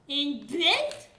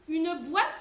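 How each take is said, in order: First: The vowel is an open 'è' sound, Cauchois-style. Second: The vowel is a standard French 'wa' sound.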